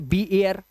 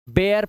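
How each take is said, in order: First: The letter name 'bee' is said before 'air'. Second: The B sound blends straight into 'air'. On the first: The speaker calls it wrong. "बी एयर नहीं पढ़ेंगे" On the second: The speaker calls it right. "बेयर पढ़ते हैं इसको"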